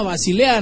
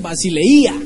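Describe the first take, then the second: First: Said in the usual way. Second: "Basileía" with a loud stressed I. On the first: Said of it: "que se llama Basilea". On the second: Shown as a demonstration. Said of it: "con tilde en la I".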